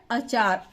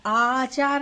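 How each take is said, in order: First: अचार with a short clipped first अ. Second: आचार with the first आ held long. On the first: Teacher to pupils, short अ in अचार. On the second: Teacher showing the wrong long आ. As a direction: stretch the आ in आचार on purpose. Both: Shown as a demonstration. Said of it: "आचार नहीं है".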